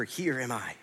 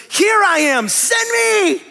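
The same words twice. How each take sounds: First: Said in the usual way. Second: Much higher, louder eager shout; eager volunteer. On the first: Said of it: "this word here for". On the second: Acted. Isaiah answering God's call, shouting eagerly to be sent. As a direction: leap up and volunteer with everything. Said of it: "he goes".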